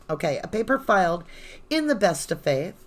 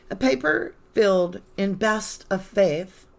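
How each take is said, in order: First: Said in the usual way. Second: "filled" with a short i, like fill; misread as filled. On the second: Real, not acted. Reading a legal brief aloud, "filled" said like fill. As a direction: reads "filled" instead of "filed", slow and careful. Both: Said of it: "Oh, filed".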